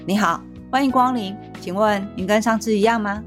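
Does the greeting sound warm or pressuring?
pressuring. It sounds stiff and pressuring.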